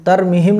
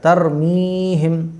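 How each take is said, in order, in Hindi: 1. 'm' के बाद का स्वर छोटा है। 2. 'm' के बाद का स्वर लंबा खींचकर पढ़ा जाता है। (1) "नहीं पढ़ा जाएगा" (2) "तो फिर खींच के पढ़ा"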